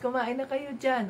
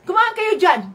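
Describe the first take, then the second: First: It is said in a soft, calm tone. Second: It is said in a harsh, angry tone. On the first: The speaker is kindly inviting the listeners. The speaker calls it right. "Soft voice, slow voice" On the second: The speaker is irritated with the listeners. The speaker calls it wrong. "parang palagi na lang galit"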